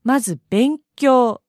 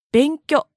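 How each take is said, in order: First: Said in the usual way. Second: 勉強 with the final long vowel cut short, a clipped benkyo; 勉強 said Kansai style, ending shortened. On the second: Shown as a demonstration. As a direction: chop the ending off 勉強. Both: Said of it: "と発音します".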